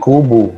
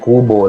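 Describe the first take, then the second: First: The final vowel is a u sound. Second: The final vowel is an o sound. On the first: "nagiging kubu, gano'n sila" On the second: "Lahat ng O nagiging U"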